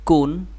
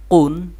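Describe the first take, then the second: First: কুন, light and plain at the start; thin light consonant. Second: কুন, full and heavy at the start; thick heavy consonant. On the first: (কুন চিকন করে) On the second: (কুন মোটা করে) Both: Shown as a demonstration. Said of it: "এটা মোটা, এটা চিকন".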